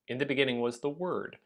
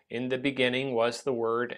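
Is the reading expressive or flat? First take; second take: expressive; flat. First: It is read with lively, varied expression. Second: It is read in a flat, monotone way. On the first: The speaker calls it right. "someone who reads it well" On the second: The speaker calls it wrong. "people who read it in a really flat way"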